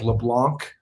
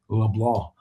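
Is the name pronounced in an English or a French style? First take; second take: English; French. First: The name is given a plain English reading. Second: The name is given a French Cajun pronunciation. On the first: This is how the name looks when written. The speaker calls it wrong. "Looks like LeBlanc" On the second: This is how the player himself says the name. The speaker calls it right. "he pronounces it with this uh, French Cajun"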